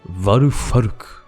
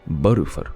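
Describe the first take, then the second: First: The name begins with a V sound. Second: The name begins with a B sound. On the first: It follows English phonetics. "I do the V because I'm, you know, fancy" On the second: It follows Japanese phonetics. "there is no V sound in Japanese, so it's actually Barufaruk"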